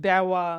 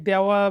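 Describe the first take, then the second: No difference in how they are said.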